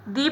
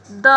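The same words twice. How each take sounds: First: दी said with a long ee; long "thee" sound. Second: द said short, like "thuh"; short "the" sound. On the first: Teacher showing students दी before vowel nouns. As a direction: stretch दी into "thee". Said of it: "उसे दी पढ़ा जाता है". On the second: Teacher showing students the short द sound. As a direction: say द clipped, with a short neutral vowel. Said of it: "द का प्रयोग हो तो उसे द पढ़ा जाता है". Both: Shown as a demonstration.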